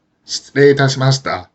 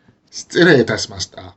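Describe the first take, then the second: First: 失礼いたしました with each word keeping its own pitch accent; separate accent phrases. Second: 失礼いたしました run together, pitch falling away after the first accent; combined accent phrase. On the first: Teacher showing learners the uncombined form, 失礼いたしました in separate accents. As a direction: give 失礼 and いたしました each their own rise and fall. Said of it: "with all accents except for the first". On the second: Teacher showing the common form, 失礼いたしました as one falling phrase. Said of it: "you will more often hear". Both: Shown as a demonstration.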